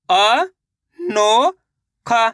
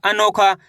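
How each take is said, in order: First: अ, नो, खा as separate stretched sounds, the first two rising; syllable by syllable. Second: Said in the usual way. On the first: Shown as a demonstration. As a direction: sound out अ, नो, खा one at a time. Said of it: "एक अक्षर का उच्चारण सही से". (अ, नो, खा एक-एक करके, खींचकर) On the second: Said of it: "तो मिलके बन जाएगा".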